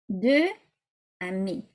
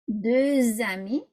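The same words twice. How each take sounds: First: The words are said apart without linking. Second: The final consonant links into the next word. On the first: The speaker calls it wrong. "if you read it, those words separately" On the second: The speaker calls it right. "this is what it would sound like"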